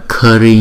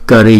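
First: The vowel after the K is drawn out long. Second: The vowel after the K is short. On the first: The speaker calls it wrong. "đừng đọc là Kari nha" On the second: The speaker calls it right. "Kari chứ không phải là Kari nha"

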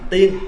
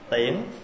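First: The syllable has a level mid tone. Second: The syllable has a broken rising tone. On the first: It means an immortal or fairy. "không có dấu" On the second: It means an arrow or seeing off. "là dấu ngã"

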